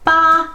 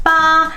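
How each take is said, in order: First: The pitch stays high and level throughout. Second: The pitch stays high and level throughout.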